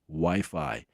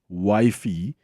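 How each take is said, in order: First: The word ends with an 'eye' sound. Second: The word ends with an 'ee' sound. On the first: The speaker calls it right. "instead of Wi-Fi" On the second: The speaker calls it wrong. "one that takes the cup is wifey"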